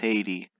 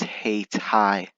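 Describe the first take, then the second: First: The second syllable does not sound like 'tie'. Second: The second syllable sounds like 'tie'. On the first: This is the Caribbean island's name. The speaker calls it wrong. "I've always thought it, this place was pronounced Haiti" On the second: This is the local name of the city. The speaker calls it right. "so it's hey tie"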